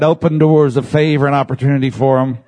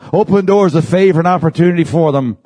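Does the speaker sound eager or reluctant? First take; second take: reluctant; eager. First: It is said in a flat, grudging way. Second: It is said with eager, heartfelt feeling. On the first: The blessing is given unwillingly. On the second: The blessing is truly meant.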